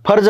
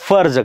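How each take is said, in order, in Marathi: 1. तो दोन्ही ओठ जुळवून फुटणाऱ्या आवाजाने सुरू होतो. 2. तो ओठ आणि दात यांच्या आवाजाने सुरू होतो. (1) "याचा उच्चार फर्ज नाही करायचा" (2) "याचा उच्चार फर्ज करायचा"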